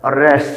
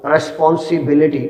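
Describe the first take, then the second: First: responsibility broken into six beats with long pauses; syllable by syllable. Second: Said in the usual way. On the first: Shown as a demonstration. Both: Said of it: "उसको मैं ठहर ठहर के अदा करूँगा".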